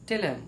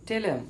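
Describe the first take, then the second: First: The th sound drops and the words merge. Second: The same.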